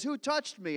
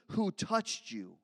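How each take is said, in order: First: Who touched me? asked higher, stress on touched; stopped short, Who touched me? rising high; questioning Jesus. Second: Who touched you? slowed, mocking disbelief; incredulous repeat. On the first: Acted. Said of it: "he stops and he says". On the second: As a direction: echo Who touched you? slowly, baffled. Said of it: "What do you mean".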